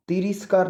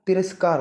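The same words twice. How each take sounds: First: तिरस्कार said wrongly as "tiriskaar"; wrong pronunciation. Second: तिरस्कार with a short "ras", "ti-ras-kaar"; correct pronunciation. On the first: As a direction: put a mistaken i in the middle of तिरस्कार, "ti-ris-kaar". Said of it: "तिरस्कार नहीं". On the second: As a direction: say तिरस्कार as "tiraskaar". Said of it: "तिरस्कार होता है". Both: Shown as a demonstration.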